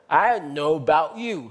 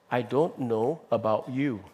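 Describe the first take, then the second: First: Sounds are dropped and the words run together. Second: Every sound of the words is fully pronounced. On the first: This marks the speaker as from a particular community. ""I don't" 那个"d" 都没有" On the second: This is the standard, careful way of speaking. "很正统，美国人讲话是"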